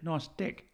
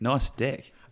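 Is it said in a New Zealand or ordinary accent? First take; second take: New Zealand; ordinary. First: It is said in a New Zealand accent. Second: It is said in his ordinary accent.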